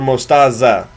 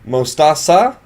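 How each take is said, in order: First: The middle consonant is a Z sound. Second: The middle consonant is an S sound.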